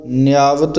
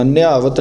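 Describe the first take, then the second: First: ਨਿਆਵਤ said slowly and softly articulated; soft pronunciation. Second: Quicker, firmer ਨਿਆਵਤ as a counterexample; hard mispronunciation. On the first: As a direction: say ਨਿਆਵਤ with light, loose consonants. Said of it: "ਇਸ ਨੂੰ ਪੋਲਾ ਬੋਲਣਾ". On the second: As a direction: press ਨਿਆਵਤ together, without the gentle glide. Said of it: "ਨਿਆਵਤ ਨਹੀਂ ਕਹਿਣਾ". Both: Shown as a demonstration.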